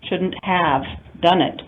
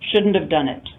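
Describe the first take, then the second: First: The word 'have' is said in full. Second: The word 'have' is reduced and weak.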